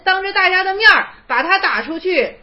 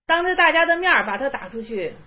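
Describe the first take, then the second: First: Raised, forceful telling; 大声强调; emphatic loud. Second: Said in the usual way. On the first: Shown as a demonstration. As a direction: hammer the point home, 当着大家的面儿 ringing out. Repeats the instruction, loudly.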